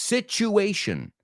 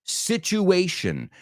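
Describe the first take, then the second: Both takes have the same delivery.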